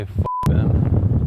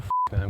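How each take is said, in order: First: Blurted loud and forceful; loud, punchy outburst; loud curse. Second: Said in the usual way. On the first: Shown as a demonstration. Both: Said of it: "Or no, sorry, not".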